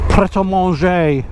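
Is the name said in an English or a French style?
French. It is said with French-style sounds. It tries to sound continental. The speaker calls it wrong. "when people call pret a manger"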